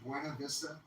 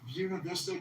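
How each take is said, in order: First: The name is pronounced with Spanish vowels. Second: The name is pronounced with English vowels. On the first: It marks the speaker as a newcomer. The speaker calls it wrong. "that's like the freaking Spanish pronunciation" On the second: It sounds like a local. The speaker calls it right. "you know how they pronounce it down there"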